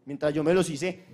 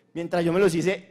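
First: Said in the usual way. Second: Los stressed with a rising end. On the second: Real, not acted. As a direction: lean on los and lift the end.

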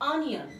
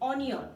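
First: অনিয়ন said the correct English way, clearly; correct pronunciation. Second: অনিয়ন said the common wrong way, as many say it; the usual local way of saying অনিয়ন; common mispronunciation. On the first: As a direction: model the right sound of অনিয়ন. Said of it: "কিন্তু এটা সঠিক উচ্চারণ হচ্ছে". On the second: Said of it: "এইটাতে এখন আমরা অনেকেই বলি". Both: Shown as a demonstration.

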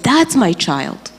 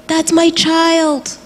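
First: Slow, steady, moderately raised claim; the woman calmly claiming her as her own. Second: Put-on mother screaming for her child, high and drawn out; retold scream. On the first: Retold or imitated. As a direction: say it slowly and firmly, without screaming. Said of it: "and she said". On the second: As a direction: draw out the claim like a desperate scream. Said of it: "she's screaming and she said".

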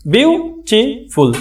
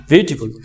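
First: Slow "beautiful" broken into three syllables; syllable split. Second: Said in the usual way. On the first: Shown as a demonstration. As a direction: stretch "beautiful" beat by beat. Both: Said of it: "try syllable বলে".

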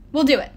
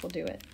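First: High, loud, decisive agreement; emphatic agreement. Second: Soft, low-key concession; subdued agreement. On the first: Will accepts the nymph's bargain, loud and emphatic. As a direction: jump in and commit at once. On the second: Nico gives in to the nymph's bargain, subdued. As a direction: give in quietly, voice dropping away. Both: A narrator's reading.

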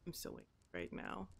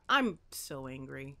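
First: Much lower, much softer, quick grumble; mock angry mutter. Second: Said in the usual way. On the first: Player grumbling at the broken boat, soft quick mutter. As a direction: mutter it under your breath in mock anger.

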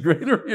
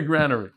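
First: "granary" with a long A, as in grain; long-A pronunciation. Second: "granary" with a short A, as in gran; short-A pronunciation. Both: Shown as a demonstration. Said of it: "Is that how you say it?".

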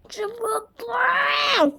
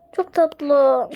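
First: High gushing cry on tatlı; squealed. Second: Said in the usual way. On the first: Real, not acted. Gushing to viewers about the cute fairy cat, high squeal. Repeats, second take squealed.

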